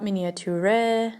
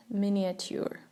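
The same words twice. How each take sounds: First: Miniature as mini-a-TYOO-reh; wrong pronunciation. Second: Miniature as MIN-ee-a-tyoor; correct pronunciation. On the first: Teacher rejecting a wrong miniature, mispronounced with a final reh. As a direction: miniature with an extra EH syllable at the end. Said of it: "Not miniature". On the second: Teacher giving learners the right miniature, soft min-ee-a-tyoor. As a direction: miniature with a short MIN and no extra syllable. Correct take after the wrong ones. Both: Shown as a demonstration.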